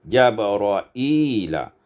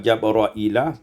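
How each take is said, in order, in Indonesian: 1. Ada vokal panjang ee setelah hamzah. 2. Tidak ada vokal panjang setelah hamzah. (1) "ditambah ya" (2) "Syu'bah yang membaca Jabra'ila"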